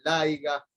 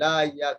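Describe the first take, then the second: First: «aiga» con g en vez de y; pronunciación popular. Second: Said in the usual way. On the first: Shown as a demonstration. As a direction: di «aiga», metiendo una g donde «haya» lleva y. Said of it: "hay gente que pronuncia laiga". («aiga» dicho a lo popular, con g) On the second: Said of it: "Allí está claro un ejemplo".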